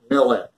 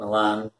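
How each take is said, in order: First: The stress is on the first syllable. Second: The stress is on the second syllable.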